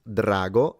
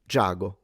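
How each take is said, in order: First: The word starts with a 'dr' sound. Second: The word starts with a 'j' sound. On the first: This is the standard Italian pronunciation. "in Italian it's drago" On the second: This is the Sicilian pronunciation. "in Sicilian it becomes giago"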